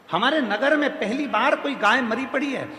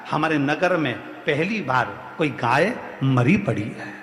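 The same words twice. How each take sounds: First: High-pitched, continuous outcry; acted dismay, voice pitched up; alarmed report. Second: Low, halting bad-news delivery; grave report. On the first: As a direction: raise the alarm in one high, unbroken run. Same news repeated as alarmed cry. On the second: Woman reports grave news to king.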